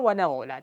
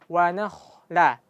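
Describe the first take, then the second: First: The middle consonant is a voiced gh with held breath. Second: The middle consonant is a breathy kh with flowing air. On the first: The speaker calls it wrong. "kalau nafasnya tertahan berubah jadi ghain" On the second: The speaker calls it right. "tapi wa nakhla"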